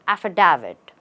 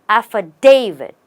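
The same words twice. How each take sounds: First: The stress is not on the 'da' syllable. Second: The stress is on the 'da' syllable. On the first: The speaker calls it wrong. "Mostly people say affidavit or affidavit" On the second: The speaker calls it right. "the right way is to stress on the day"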